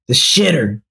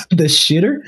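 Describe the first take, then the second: First: Said in the usual way. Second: Shitter with a rising question; amused disbelief. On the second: Real, not acted. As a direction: rise on shitter in amused surprise.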